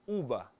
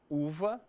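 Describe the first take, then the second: First: The middle consonant is a B sound. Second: The middle consonant is a V sound. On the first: This is the Spanish word. "Con sonido de B" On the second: This is the Portuguese word. "Que al portugués llamamos V"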